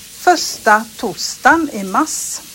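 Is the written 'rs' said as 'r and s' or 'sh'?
r and s. The r and s are said as separate sounds. This is how people from Småland say it. "Men de säger då"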